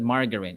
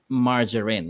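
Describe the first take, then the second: First: The word is said the common Filipino way. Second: The word is said the standard dictionary way. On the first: The speaker calls it wrong. "It's not margarine" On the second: The speaker calls it right. "it's margarine"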